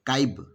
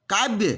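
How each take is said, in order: First: काव्य said lower, opened up; काव्य, Khortha version, low; Khortha pronunciation. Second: Said in the usual way. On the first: Shown as a demonstration. Teacher modelling the Khortha form. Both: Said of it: "सब में देखिए".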